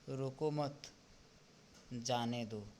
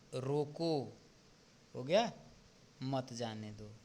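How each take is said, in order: First: A pause comes right after the second word. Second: A pause comes right after the first word. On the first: "अब हम इसी को बोल सकते हैं" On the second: "इसमें स्पष्टता आई"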